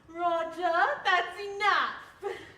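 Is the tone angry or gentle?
gentle. It is said gently, without anger.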